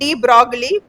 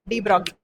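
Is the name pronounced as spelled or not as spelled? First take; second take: as spelled; not as spelled. First: The name is pronounced as it is spelled. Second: The name is pronounced differently from its spelling. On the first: The speaker calls it wrong. "You are writing de Broglie" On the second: The speaker calls it right. "you have to pronounce it like de Broglie"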